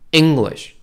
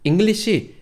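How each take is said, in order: First: The stress is on the first syllable. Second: The stress is on the second syllable. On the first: The speaker calls it right. "악센트를 앞쪽에 주셔야 돼요" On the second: The speaker calls it wrong. "English 하시면 안 돼요"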